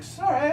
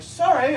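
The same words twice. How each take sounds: First: High chirpy sorry again; mock English apology. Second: High chirpy sorry; mock English apology. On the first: Comic mimicking Londoners apologizing, high and chirpy. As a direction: chirp the same polite sorry. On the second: Comic mimicking Londoners apologizing on the street, high and chirpy. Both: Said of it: "they're like".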